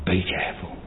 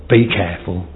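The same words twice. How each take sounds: First: Hushed, breathy whisper; whispered warning. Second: Said in the usual way. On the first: Shown as a demonstration. Preacher repeats his warning to the flock, whispered. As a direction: drop to a whisper to warn them.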